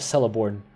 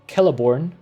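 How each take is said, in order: First: The first C sounds like an S. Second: The first C sounds like a K. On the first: The speaker calls it wrong. "instead of" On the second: The speaker calls it right. "the C is always pronounced as K ... is thus pronounced"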